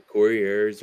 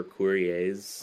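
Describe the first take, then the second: First: COURIERS with an English -ERS ending; English pronunciation. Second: COURIERS ending in a long AY sound; French-style pronunciation. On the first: Bandmate shows host the first way to say the band name, anglicized pronunciation. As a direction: say COURIERS like "KOR-ee-erz". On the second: Bandmate shows host the second way to say the band name, French-style pronunciation. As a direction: say COURIERS like "KOO-ree-ayz". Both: Shown as a demonstration. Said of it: "there's kinda, like, two ways".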